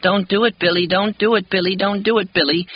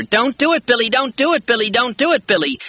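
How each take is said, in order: First: Put-on pitiful child's plea. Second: Put-on very high, loud desperate child's yell; yelling louder. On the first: Little boy begs Billy to stop, high pitiful plea. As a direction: beg like a frightened small boy. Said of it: "saying in the same pitiful voice". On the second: Little boy yells his plea at Billy, very high and loud. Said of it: "But Elliot yells louder". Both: A narrator's reading.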